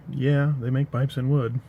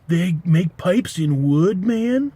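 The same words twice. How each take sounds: First: Said in the usual way. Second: Slow, amazed stoner drawl rising high on man. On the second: Retold or imitated. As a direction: gape in slow stoner wonder. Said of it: "that accent was".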